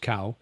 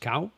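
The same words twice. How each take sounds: First: The word is said on a low tone. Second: The word is said on a high tone. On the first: "There's a low tone, which is cow" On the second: "There's a high tone, which is cow"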